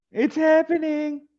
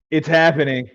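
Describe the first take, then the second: First: Very high, drawn-out playful repeat; high-pitched excitement. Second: Punchy heads-up to the group; excited announcement. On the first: Pretend. Host teasing the draft room's opening, high mock excitement. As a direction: stretch it out way up high. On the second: Real, not acted. Host alerting the guys that the draft opens, excited. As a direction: announce it with a firm, raised emphasis.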